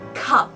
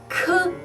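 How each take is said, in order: First: The word is said at normal speed, unbroken. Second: The word is drawn out, sounds pulled apart. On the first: "The first word is cup" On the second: "stretch it out"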